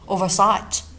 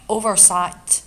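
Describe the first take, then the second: First: The stress is on the second part, sight. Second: The stress is on the first part, over. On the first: It is used as a verb. "我们中读的是后半部分啊，第二部分" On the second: It is a noun meaning an omission. "我们oversight 中读前面，这个时候意味着它表示的是名词"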